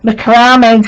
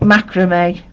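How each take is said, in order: First: The word has a British pronunciation. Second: The word has an American pronunciation.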